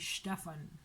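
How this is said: The name is pronounced the German way. The speaker calls it right. "It should be Stefan"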